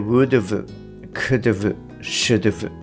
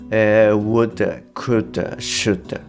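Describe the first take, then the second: First: Each word ends with a clear 'v' sound. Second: Each word ends with a reduced 'uh' sound. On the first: "not がないケースでwould've, could've, should've なんですけれども" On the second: "これをまあ略して"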